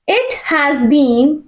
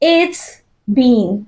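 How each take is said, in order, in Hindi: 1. 'has' पूरा बोला जाता है। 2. 'has' छोटा होकर 'it' में जुड़ जाता है।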